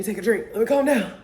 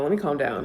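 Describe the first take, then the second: First: Much higher, laughing at her own excitement; giddy self-calming. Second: Said in the usual way. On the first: Real, not acted. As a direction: playfully tell herself to settle down.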